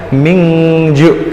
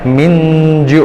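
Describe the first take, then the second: First: The nasal before j sounds like ng. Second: The nasal before j sounds like n. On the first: "kalau bilang bangsa N G itu kan mingju" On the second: "untuk memudahkan melafalkan itu pakai N J"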